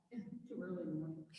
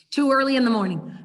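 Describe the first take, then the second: First: Mock class whisper "Too early in the morning"; teacher whispering for the silent class. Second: Loud, teasing "Too early in the morning"; louder aloud. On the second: Pretend. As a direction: say it out loud for the room. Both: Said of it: "Have I freaked you all out?".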